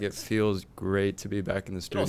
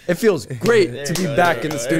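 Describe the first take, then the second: First: It is said flatly, without enthusiasm. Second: It is said with more enthusiasm and energy. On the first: The speaker calls it wrong. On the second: The speaker calls it right.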